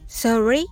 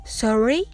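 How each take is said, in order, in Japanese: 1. 最後で音の高さが上がります。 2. 最後で音の高さが上がります。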